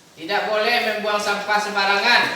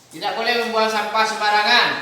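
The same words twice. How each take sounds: No difference in how they are said.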